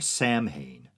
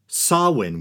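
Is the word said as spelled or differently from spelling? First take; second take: as spelled; differently. First: It is pronounced the way it looks spelled. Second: It is pronounced unlike the way it looks spelled. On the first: The speaker calls it wrong. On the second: The speaker calls it right.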